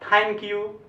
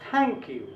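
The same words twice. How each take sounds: First: The first sound is a hard aspirated stop. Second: The first sound is a soft fricative through the teeth. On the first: The speaker calls it wrong. "अपने लोग generally बोलते हैं थैंक you, थैंक you नहीं होगा, हिंदी वाला sound है" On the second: The speaker calls it right. "उसमें जो बोलना है थैंक यू"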